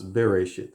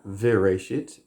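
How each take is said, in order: First: The word begins with a B sound. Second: The word begins with a V sound. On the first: The speaker calls it right. "it's Bereshit" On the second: The speaker calls it wrong. "Bereshit is not Vereshit"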